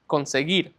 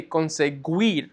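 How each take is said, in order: First: "conseguir" with a hard g and no W, as con-seh-GEER; silent U. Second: "conseguir" said with a gw sound, as con-seh-GWEER; mispronounced with sounded U. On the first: Teacher showing what you would just say, "conseguir" with silent U. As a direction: drop the U in "conseguir", ending in geer. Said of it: "The U is silent". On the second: Teacher showing what not to say, "conseguir" with the U sounded as W. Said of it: "So you wouldn't say conseguir". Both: Shown as a demonstration.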